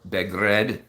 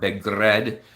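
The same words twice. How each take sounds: First: The R is said as a plain English R. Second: The R is rolled as a trill.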